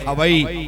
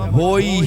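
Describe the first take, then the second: First: The word is said with a v sound, ha-vai. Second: The word is said as two syllables, ho-i. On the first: The speaker calls it wrong. "हवई ना" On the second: The speaker calls it right. "होई ही बोला जाए"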